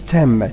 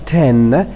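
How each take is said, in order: First: The word ends with a bilabial m sound. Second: The word ends with an alveolar n sound. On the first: The speaker calls it right. "is replaced by M" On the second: The speaker calls it wrong. "normally it's not pronounced as ten"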